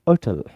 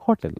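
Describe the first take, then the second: First: The word begins without an h sound. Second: The word begins with an h sound. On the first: "एच is silent" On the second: "some countries hotel"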